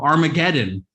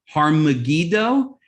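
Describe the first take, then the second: First: The name is said fast, run into one word. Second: The name is said as two separate words.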